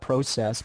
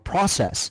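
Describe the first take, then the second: First: It is said with a Canadian pronunciation. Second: It is said with an American pronunciation. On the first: "the way you pronounce it" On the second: "It's the Americans that call it"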